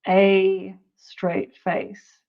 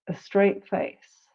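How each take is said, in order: First: The article has a full, strong vowel. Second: The article has a reduced schwa vowel. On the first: The speaker calls it wrong. "We don't usually say" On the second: The speaker calls it right. "That schwa comes back again"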